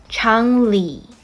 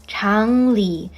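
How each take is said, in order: Both takes have the same delivery.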